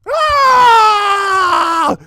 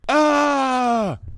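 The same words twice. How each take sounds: First: The scream is full and loud. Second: The scream is held back and quiet.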